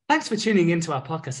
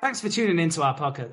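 First: It is said in a put-on character voice. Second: It is said in the speaker's natural voice.

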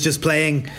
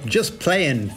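First: Playing ends with a clear g sound. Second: Playing ends without a g sound. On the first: The speaker calls it wrong. "I pronounced that wrong" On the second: The speaker calls it right. "There's no G in playing"

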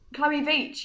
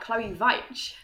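First: The surname is said in its plain, usual way. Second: The surname is said with a German-style sound. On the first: This is how the name's owner says it. The speaker calls it right. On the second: This is how other people usually say it. The speaker calls it wrong.

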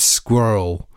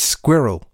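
First: It is said in an American English accent. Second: It is said in a British English accent. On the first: "In American, it's squirrel, I think" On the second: "So in English, it's squirrel"

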